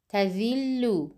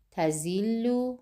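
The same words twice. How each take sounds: First: Touch teeth lightly for the ذ in تذل; word with ذال. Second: تذل as "tazillu", buzzing z; tongue behind teeth, say تذل with z; word with za. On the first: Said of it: "ستون اول کلمه با حرف زال". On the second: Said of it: "ستون دوم کلمه با حرف زا". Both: Shown as a demonstration.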